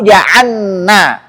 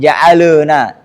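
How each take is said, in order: First: The l merges into a doubled n. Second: An extra vowel sound follows the l. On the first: "Jangan sampai" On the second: "jangan sampai dia tawallud"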